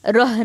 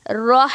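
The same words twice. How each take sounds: First: रह said thin and plain, the wrong way; रह unrounded, not the heavy रो; thin rah, wrong. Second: रह with a rounded heavy र and a throaty ह; रह said louder with full rounded र; heavy throaty rah. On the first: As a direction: toss off रह light to show the mistake. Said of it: "रह नहीं बोलेंगे". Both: Shown as a demonstration.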